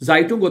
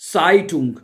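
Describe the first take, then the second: First: The word begins with a voiced z sound. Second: The word begins with an unvoiced s sound. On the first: The speaker calls it wrong. "उसको जेड नहीं एस पढ़ा जाता है" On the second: The speaker calls it right. "उसको जेड नहीं एस पढ़ा जाता है"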